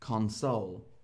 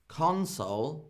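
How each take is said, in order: First: The stress falls on the second syllable. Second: The stress falls on the first syllable. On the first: It is a verb: to comfort someone who is sad. "And console is to make someone feel better when they're feeling sad" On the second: It is a noun: an electronic device with a screen. "Console is like a screen and a machine"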